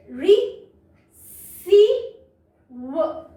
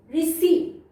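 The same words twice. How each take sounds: First: री, सी, व in separate pieces with long gaps; sounding out. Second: Said in the usual way. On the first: Shown as a demonstration. Teacher shows joining up to read, री, सी, व piece by piece. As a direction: break it up as री - सी - व. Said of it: "इस तरह से हम उनको जोड़ जोड़ के". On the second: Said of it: "जोड़ जोड़ के".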